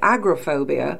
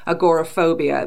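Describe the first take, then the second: First: The word has a British pronunciation. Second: The word has an American pronunciation. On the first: "Me being British, I would say" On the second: "what Americans would typically say"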